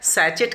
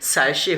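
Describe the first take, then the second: First: The middle consonant is a ch sound. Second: The middle consonant is an sh sound. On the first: The speaker calls it wrong. "सैचेट कह देते हैं लोग" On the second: The speaker calls it right. "जबकि सैशे होता है, श"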